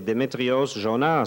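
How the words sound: The name is said with French pronunciation. He is singing for French speakers. "Quand je chante pour des francophones"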